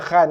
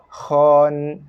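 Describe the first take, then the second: First: The vowel sounds open and light, like 'a'. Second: The vowel sounds full and rounded, like 'o'. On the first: The speaker calls it wrong. "Bukan khan eh" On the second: The speaker calls it right. "Kho bagi atas bunyi kho"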